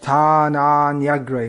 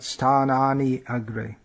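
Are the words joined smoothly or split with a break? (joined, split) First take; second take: joined; split. First: The words flow together without a break. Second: The words are split with a break between. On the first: The speaker calls it right. "This should be pronounced Sthananyagre" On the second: The speaker calls it wrong. "not Sthanani agre"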